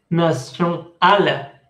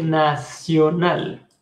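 First: "nacional" with a nasal vowel on na-; mock the nasal "nacional"; wrong pronunciation. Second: "nacional" with a clear spoken n; correct pronunciation. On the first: Teacher showing the mistake students make, nasal. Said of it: "Uno no dice nacional". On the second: Teacher giving the correct form to students, clear n. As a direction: model the right "nacional". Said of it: "Uno dice nacional". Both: Shown as a demonstration.

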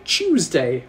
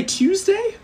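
First: "Tuesday" with a soft ch sound at the start; "Tuesday" opening like "choose"; requested pronunciation. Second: "Tuesday" with a crisp t-y start, TYOOZ-day; "Tuesday" with a clean T, no ch; alternative pronunciation. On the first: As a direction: say "Tuesday" as CHOOZ-day. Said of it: "Hector would like me to say". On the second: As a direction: say "Tuesday" as tyooz-day, lifted high like a question. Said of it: "I can also say Tuesday". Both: Shown as a demonstration.

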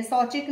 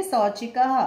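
First: "शौचिक" cut off at the final k, no "ha"; visarga left off. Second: "शौचिकः" carefully ended on an audible "ha"; visarga sounded. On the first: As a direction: say "शौचिक" quickly without the closing h sound. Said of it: "शौचिक नहीं बोलेंगे". ("शौचिक" बिना विसर्ग के, अंत में "ह" नहीं) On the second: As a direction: say "शौचिकः" with an h syllable after the k. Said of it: "क्या बोलेंगे?". ("शौचिकः" के अंत में "ह" साफ़ बोलते हुए) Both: Shown as a demonstration.

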